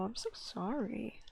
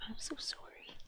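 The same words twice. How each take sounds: First: Slow, whispered apology to the cat; hushed, slow sorry; soft whisper. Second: Barely audible whispered sorry, even softer; a breath of an apology; fainter whisper. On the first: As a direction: whisper it slowly, gently sorry. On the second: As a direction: let it fade to almost nothing. Apologising softly to the cat. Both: Real, not acted.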